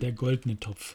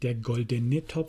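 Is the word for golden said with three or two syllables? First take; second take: two; three. First: The word for golden has two syllables. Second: The word for golden has three syllables. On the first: The speaker calls it right. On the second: The speaker calls it wrong. "es heißt nicht"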